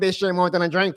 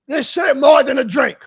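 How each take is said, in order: First: It is said meekly, without any emphasis. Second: It is said boldly, with strong emphasis. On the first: The speaker calls it wrong. "You can't go in there and be like" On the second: The speaker calls it right. "You got to say it with emphasis too"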